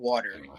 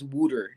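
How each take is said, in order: First: The first vowel sounds like 'ah'. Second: The first vowel sounds like 'oo'. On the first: This is the usual way to say it. "not water" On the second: This is how another person says it. "He says wooter"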